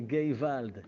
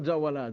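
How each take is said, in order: First: The word starts with a hard G sound. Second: The word starts with a J sound. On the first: The speaker calls it right. "זה גייוולד" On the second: The speaker calls it wrong. "זה לא ג'אוולד"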